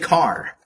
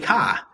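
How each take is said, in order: First: It is said without a Boston accent. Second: It is said in a Boston accent.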